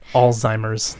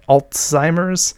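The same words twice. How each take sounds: First: The l goes straight into z, no t. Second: A t sound is inserted between l and z. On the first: The speaker calls it right. "For those of you who have ever wondered" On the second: The speaker calls it wrong. "people sort of introduce a sound to it"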